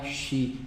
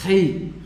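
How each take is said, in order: First: The first sound is soft, not from the throat. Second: The first sound is harsh, from the throat. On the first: The speaker calls it wrong. "Por favor, não é xi" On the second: The speaker calls it right. "ele tem esse somzão aqui"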